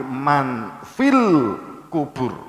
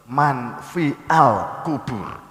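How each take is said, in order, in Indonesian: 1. Artikelnya menyambung dengan lancar ke kata sebelumnya. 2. Artikelnya diucapkan terpisah dari kata sebelumnya. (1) "tapi man fil kubur" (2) "Nek dibaca pedot-pedot"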